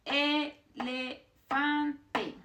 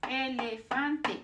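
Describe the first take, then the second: First: "Elefante" very slowly as e-le-fan-te, higher; syllable by syllable. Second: "Elefante" slowly but joined into one word; slower sounding-out. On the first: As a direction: break "Elefante" into long, separate syllables. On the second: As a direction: say "Elefante" unhurriedly with full clear vowels. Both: Shown as a demonstration. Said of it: "always the same".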